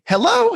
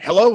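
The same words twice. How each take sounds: First: It is said in a cheerful, upbeat tone. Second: It is said in a curt, unfriendly tone.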